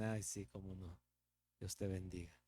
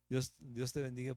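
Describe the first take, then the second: First: Softer, lower sarcastic mutter behind their back; mock the blessing under your breath; sarcastic aside. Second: Said in the usual way. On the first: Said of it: "por detrás tal vez nos dicen". (a espaldas, bendición sarcástica en voz baja)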